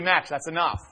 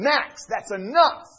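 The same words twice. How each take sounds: First: It is said softly and gently. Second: It is yelled loudly. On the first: A mild request that is easy to ignore. "I'll say it gently" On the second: A command that finally gets obeyed. "The moment I yell at him"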